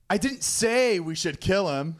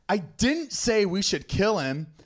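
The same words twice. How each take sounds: First: The stress is on the word 'say'. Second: The stress is on the word 'didn't'.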